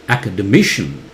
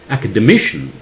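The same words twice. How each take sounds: No difference in how they are said.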